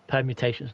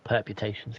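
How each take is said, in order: First: The second syllable begins with an M sound. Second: The second syllable begins with a P sound. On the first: The speaker calls it right. "permutations, not perputations" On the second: The speaker calls it wrong. "not perputations"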